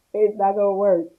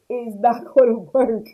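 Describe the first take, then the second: First: Said in the usual way. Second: Laughing through the line; repeating the point with a laugh. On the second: Real, not acted. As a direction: break into a laugh mid-phrase.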